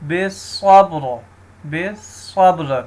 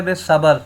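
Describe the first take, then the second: First: بالصبر with silent ب and ر; correct reading. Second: بالصبر with a vowel on the ب; wrong reading. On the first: Teacher shows the correct بالصبر. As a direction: read بالصبر with no vowel on ب and ر. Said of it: "با کو بھی ہم نے ساکن کرنا ہے". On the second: Teacher shows a common wrong reading of بالصبر. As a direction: mispronounce بالصبر as besəbər. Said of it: "اب با غلط پڑھتا ہے". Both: Shown as a demonstration.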